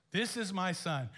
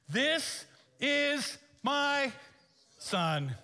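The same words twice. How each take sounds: First: Said in the usual way. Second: Very slow, high, loud divine declaration; booming voice of God. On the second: Acted. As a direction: declare it from the sky, drawn out. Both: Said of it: "God himself was on the witness stand".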